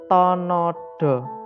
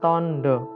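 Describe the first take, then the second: First: A full vowel is heard after the n. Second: The n joins straight onto the d. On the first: The letters are written without the joining mark. "nanti bacanya tetap tonodo" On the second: The letters are written with the joining mark. "bukan tondo"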